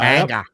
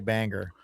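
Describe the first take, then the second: First: The final R sound is dropped. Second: The final R sound is pronounced. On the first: "they don't say the R at the end" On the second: "They don't say Bangor"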